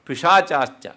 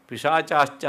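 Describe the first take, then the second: No difference in how they are said.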